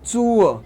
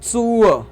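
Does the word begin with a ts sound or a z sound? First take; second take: ts sound; ts sound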